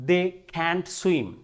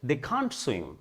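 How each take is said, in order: First: Can't has a flat American front vowel. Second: Can't has a long British back vowel.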